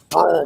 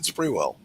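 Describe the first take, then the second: First: It is pronounced like 'squirrel'. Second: It is pronounced like 'spree-well'. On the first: The speaker calls it right. "It's Squirrel Bluff" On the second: The speaker calls it wrong. "So I always said Spreewell"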